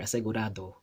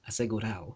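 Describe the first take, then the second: First: The d sound before the final vowel is pronounced. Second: The d sound before the final vowel is dropped. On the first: "You don't hear asegurado" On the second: "that D just kind of goes away"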